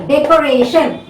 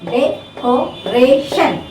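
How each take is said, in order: First: Said in the usual way. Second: "decoration" very slowly, de, co, ra, tion; syllable by syllable. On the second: Shown as a demonstration. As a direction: space out all four syllables of "decoration". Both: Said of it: "second syllable from the back".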